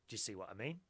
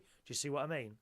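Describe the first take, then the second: First: The voice rises at the end. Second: The voice falls at the end. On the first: This is how Australians say it. "their voice goes up" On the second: This is how the English say it. "whereas ours goes down"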